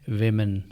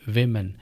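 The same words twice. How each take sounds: The two takes are said the same way.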